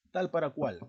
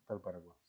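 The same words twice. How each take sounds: First: Loud, high "Tal para cual", falling end; ejemplo enfatizado. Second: Low, soft "Tal para cual"; afirmación. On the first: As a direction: pose the phrase loudly for testing. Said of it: "¿Estás preguntando o estás afirmando?". ("Tal para cual" fuerte y agudo) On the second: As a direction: state it quietly as an answer. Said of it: "estás afirmando o estás respondiendo". ("Tal para cual" bajo y suave, afirmando) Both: Shown as a demonstration.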